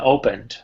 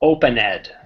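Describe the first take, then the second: First: The ending is only a soft final consonant. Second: The ending is a separate, strong 'ed' syllable. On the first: The speaker calls it right. "I never say ed" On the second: The speaker calls it wrong. "Open ed sounds much stronger"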